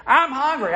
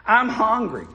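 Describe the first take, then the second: First: Put-on higher, louder little girl whine. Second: Lightly voiced whiny little girl; a hint of a hungry child whining; child's whine. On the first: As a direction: whine it higher like a fed-up child. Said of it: "get a little bit louder in this case". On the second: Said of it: "the little girl began to whine".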